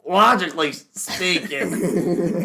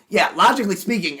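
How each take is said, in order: First: Slow, slurred, higher drawl; drunk Ben Shapiro. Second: Higher, louder smug pundit voice; lightly voiced Ben Shapiro, prim and lecturing; mock Ben Shapiro. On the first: Retold or imitated. Teasing friend as alcoholic Ben Shapiro, slow slurred drawl. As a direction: stretch it out like a tipsy pundit. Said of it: "and you're just like". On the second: Mocking Ben Shapiro on a podcast, smug pundit voice. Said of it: "Ben Shapiro's just like".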